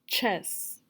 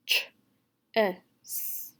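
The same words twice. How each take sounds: First: Said in the usual way. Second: CHESS broken into ch, e, s; segmented sounds. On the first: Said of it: "I'm gonna tell you a word". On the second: Shown as a demonstration. Teacher showing the sounds in chess, segmented. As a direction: say "Ch-es" sound by sound with gaps. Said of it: "you're gonna tell me the sounds".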